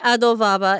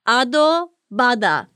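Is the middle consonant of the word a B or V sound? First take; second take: V; B. First: The middle consonant sounds like a V. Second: The middle consonant sounds like a B. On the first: The speaker calls it wrong. "Did I say that right?" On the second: The speaker calls it right. "There it is"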